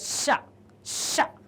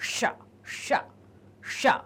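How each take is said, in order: First: The sh sound is made with tongue forward. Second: The sh sound is made with tongue curled back. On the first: The speaker calls it right. "इसमें जीभ आगे आएगी और ये sound स्पष्ट सुनाई देगा" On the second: The speaker calls it wrong. "हम ऐसे नहीं कहते हैं"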